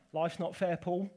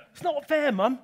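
First: Lightly voiced matter-of-fact mum; a hint of mum. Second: Put-on higher, louder childish whine; a kid protesting to his mum; whining child. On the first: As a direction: mum brushing off her son's complaint, lightly done. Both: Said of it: "what my mum used to say to me".

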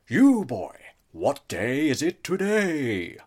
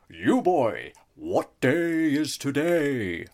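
First: Put-on loud, slow old miser's bellow; hammed-up Scrooge, even louder; Scrooge calling out. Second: Put-on loud, slow old miser's call; hammed-up Ebenezer Scrooge calling to a boy. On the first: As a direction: call down to the boy like Scrooge. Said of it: "I refused to break character". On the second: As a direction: bellow it like Scrooge at the window. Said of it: "while I was in Ebenezer Scrooge mode".

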